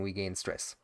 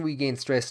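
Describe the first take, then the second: First: Softer, lower, resigned to the stress; we gain stress muttered softly in defeat. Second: Said in the usual way. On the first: Acted. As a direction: let it drop away in defeat. Same phrase repeated, resigned.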